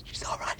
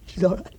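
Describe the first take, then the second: First: Whisper. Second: Said in the usual way. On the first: Acted. Man in shock, muttering.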